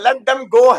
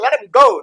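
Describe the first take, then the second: First: Them is said in full with its th sound. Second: Them is cut down to a short em sound. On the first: "मतलब let देम go है वो" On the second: "पर बोल देगा let हिम go"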